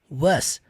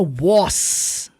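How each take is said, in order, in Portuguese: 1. A palavra é dita leve e reduzida. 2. A palavra é dita completa e bem forte. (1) "é um pouco mais leve" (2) "você não vai falar was"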